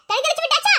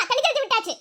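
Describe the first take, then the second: First: விட்டாச்சா lifted as a question; questioning rise. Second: விட்டாச்சு dropped as a verdict; final falling statement. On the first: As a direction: end on a rising விட்டாச்சா. Asks, then answers herself. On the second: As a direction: let விட்டாச்சு fall, case closed. Answers her own question. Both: Acted.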